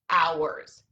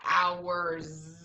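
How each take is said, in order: First: Hours, said short and louder; emphatic hours; punched hours. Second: Hours, held out long; dragged-out word; drawn-out hours. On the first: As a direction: hit hours hard. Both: Shown as a demonstration. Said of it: "repeated word".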